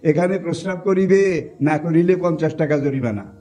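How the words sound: The pause comes before the word 'না'.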